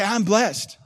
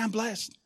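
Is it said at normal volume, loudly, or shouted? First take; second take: loudly; normal volume. First: It is said a little louder. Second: It is said at normal volume.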